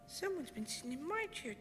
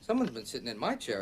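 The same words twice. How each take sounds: First: It is said in a wee small voice. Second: It is said in a medium-sized voice. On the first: The baby bear is speaking. "said in his wee small little voice" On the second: The mother bear is speaking. "she said in a medium-sized voice"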